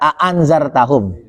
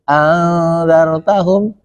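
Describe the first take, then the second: First: Both hamzas are pronounced clearly and separately. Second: The second hamza is softened and merged. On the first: This follows the Hafs reading tradition. "Kan kalau kita a'anzartahum" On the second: This follows the Nafi' reading tradition. "tapi anzartahum ... itu dijadikan satu. Ditashilkan"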